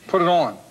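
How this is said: It is said in a Philadelphia accent. "It's a Philadelphia accent. We say things like, we say on"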